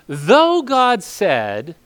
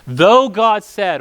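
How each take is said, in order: First: Drawn-out words that rise and hang unfinished; very slow, rising, cut off; slow cut-off quote. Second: Drawn out, a bit louder, falling; slow, firm, falling read; slow emphatic quote. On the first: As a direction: drag it out and leave it hanging mid-sentence. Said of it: "he's literally in mid-sentence". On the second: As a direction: lean on it slowly and firmly. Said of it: "finish the sentence". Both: Shown as a demonstration.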